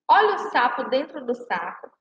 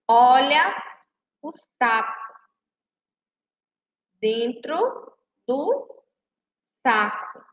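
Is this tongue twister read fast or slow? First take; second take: fast; slow. First: The line is read quickly and fluently. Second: The line is read slowly and carefully. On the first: The tongue-twisting effect shows. "Vamos ler rápido agora" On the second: Each sound can be picked out. "a gente vai ler bem devagar"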